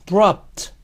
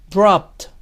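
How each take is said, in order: The two takes are said the same way.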